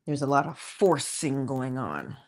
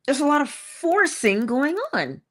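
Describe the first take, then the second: First: Low, subdued delivery; low aside. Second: FORCING stressed, pitched up; emphatic repeat. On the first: Speaker noting the strain in trying to be patient, low aside. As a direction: drop it low and slightly soft. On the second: Speaker driving home the point about trying, emphatic repeat. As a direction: lift the line higher and lean on "forcing". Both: Shown as a demonstration.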